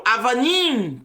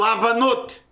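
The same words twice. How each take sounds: First: Avanim with the masculine -im ending, stressed on -nim; correct Hebrew plural. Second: Avanot said as the wrong feminine plural, ending in -ot; wrong plural form. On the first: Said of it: "Eu falo Avanim". (Avanim, plural masculino correto com -im) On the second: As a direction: say Avanot, the form the teacher rejects. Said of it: "Eu não falo Avanot". (Avanot, plural errado com -ot) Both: Shown as a demonstration.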